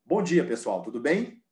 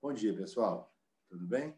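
First: Full-voiced, lively hello to the group; energetic greeting. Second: Soft, low, subdued hello; low-energy greeting. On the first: Coach greeting podcast listeners to show vocal impact, energetic. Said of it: "Eu posso chegar e dizer pra vocês". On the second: Coach showing podcast listeners the weak alternative, soft and low-energy. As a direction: greet the group quietly, with little energy. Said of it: "Ou eu posso". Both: Shown as a demonstration.

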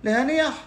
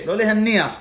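First: להניח high and careful, with one light n; להניח with the nun undoubled; soft single nun. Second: להניח with the nun doubled, "le-han-niach"; rejected doubled nun. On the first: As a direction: say "le-ha-niach" for להניח, open ha before a single n. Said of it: "רפה". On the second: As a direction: show the wrong reading of להניח with a hard geminated n. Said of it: "לא עושים דגש". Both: Shown as a demonstration.

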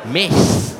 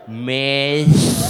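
First: "mess" with a narrow Cape vowel, meaning mash; "mess" said as accented mash, hushing final sound; corrective accent. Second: "Mess" drawn out slowly and lower; one long, emphatic "Mess"; over-clear. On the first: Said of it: "I don't wanna mess the gravy". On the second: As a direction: enunciate "Mess" as if to someone slow. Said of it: "let me say it clear for you". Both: Acted.

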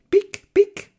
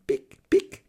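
First: Very high, loud pic-pic; squeaky pecking. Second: High little pic-pic; light pecking. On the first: Narrator voicing the doves pecking, very high and loud. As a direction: squeak out each pic sharply. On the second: Narrator voicing the doves pecking, high and light. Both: A narrator's reading. Birds pecking, sound voiced.

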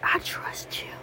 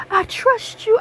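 First: Breathy whisper of trust; barely voiced, said only to God. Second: Higher, rising. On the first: Repeating the prayer softly. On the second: Repeating the prayer aloud. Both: Shown as a demonstration.

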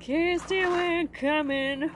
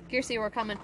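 First: High, stretched, playful calling out; drawn-out teasing sing-song; singsong call. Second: Said in the usual way. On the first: Acted.

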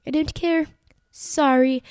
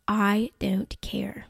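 First: High-pitched sassy dismissal. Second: Very slow, hushed sassy brush-off. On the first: Answering the team about the cut, high-pitched sass. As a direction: toss it off with mock sass, pitched up. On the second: Answering the team's complaints, slow hushed sass. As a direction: draw out I DON'T CARE with soft sass. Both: Retold or imitated. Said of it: "I didn't say it sassy".

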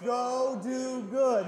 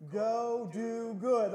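First: Loud, very slow group command; mock-divine chorus, loud and drawn-out; loud like God. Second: Slow, drawn-out divine command; mildly voiced God, slow. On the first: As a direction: boom it out slowly like God. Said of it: "you're talking like God, so you gotta talk really loudly". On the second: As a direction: model the reply slowly, as God. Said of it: "you will always respond with the words". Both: Shown as a demonstration.

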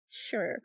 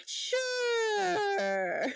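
First: Said in the usual way. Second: SURE stretched out long on a high pitch; high, lingering SURE, held and sliding down; long-drawn sure. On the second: Acted. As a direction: draw out SURE in a high character voice. In character, grudging agreement, then repeated.

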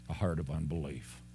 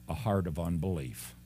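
No difference in how they are said.

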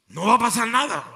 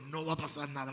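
First: Loud, firm voice of God; commanding divine voice, much louder; serious booming voice. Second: Softer, low calm reassurance; gentle voice of God, subdued; quiet divine voice. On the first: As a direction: boom it out with gravity. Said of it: "Así, una voz seria le dijo". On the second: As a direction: say it softly, settling her fear. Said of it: "escuché esa voz que le dijo". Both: Retold or imitated.

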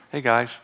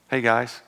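First: "guys" stressed, "Hey" light. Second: "Hey" punched, "guys" light; stress on hey. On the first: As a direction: hit the word "guys". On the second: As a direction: lean on the word "Hey". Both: Shown as a demonstration. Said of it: "let's do it that way".

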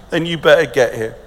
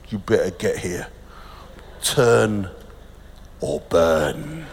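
First: Said in the usual way. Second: Low, hushed mock menace; mock turn-or-burn preacher. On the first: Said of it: "it's not that". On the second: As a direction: imitate a doom preacher, very low and soft. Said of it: "we're not gonna do it in a".

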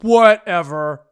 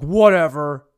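First: Loud, drawn-out dismissive mimicry; changed voice. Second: Loud put-on dismissive voice; changed voice. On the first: Guy dismisses the girl's complaint, loud mock scoff. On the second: Guy brushes off his date's account, loud mimicked scoff. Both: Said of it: "See how I changed his voice already?".

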